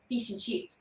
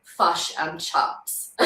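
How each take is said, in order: First: "fish and chips" as "feesh and cheeps"; softly, Australian "ee" in "fish and chips"; Australian vowel. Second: Slow "fush and chups"; short U vowel. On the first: Showing how Australians differ, Australian vowel. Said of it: "they'll be very much like, "E". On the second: Showing how we differ from Australians, slow U vowel. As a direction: draw out "fish and chips" with U vowels. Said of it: "like, more of a U sound". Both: Shown as a demonstration.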